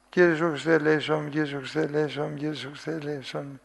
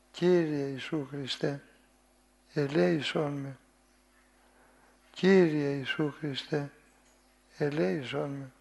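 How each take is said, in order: First: Rushed prayer. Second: Humble pleading prayer. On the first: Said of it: "Είναι οικετευτική αυτή η προσευχή". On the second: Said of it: "με φωνή παρακλητική και οικετευτική". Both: Shown as a demonstration.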